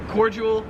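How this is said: It is pronounced the American way. "in America, we pronounce it cordial"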